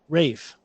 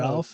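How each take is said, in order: First: The name has no L, rhyming with 'safe'. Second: The name has an L sound, like 'Alf'. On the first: The speaker calls it right. "It's Rafe" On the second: The speaker calls it wrong. "I don't think it's said Ralph"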